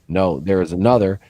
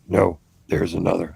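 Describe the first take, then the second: First: It is said in a normal voice. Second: It is said in a Yoda voice.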